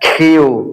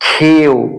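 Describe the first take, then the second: No difference in how they are said.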